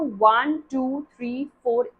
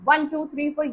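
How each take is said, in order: First: The count is steady with time between numbers. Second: The count is rushed with little time between. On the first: The chest gets time to rise again. The speaker calls it right. "इस तरह का rhythm चलना चाहिए" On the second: The chest gets no time to rise again. The speaker calls it wrong. "ये rhythm नहीं चलना चाहिए"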